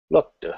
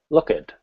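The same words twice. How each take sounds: First: The word ends with a soft D sound. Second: The word ends with an added id syllable. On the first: "with a softer D" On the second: "if I use the id sound"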